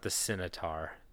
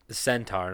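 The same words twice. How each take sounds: First: The word is said like sitar. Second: The word is said as centaur. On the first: The speaker calls it wrong. "not the Centaur. That's an instrument. Sitar" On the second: The speaker calls it right.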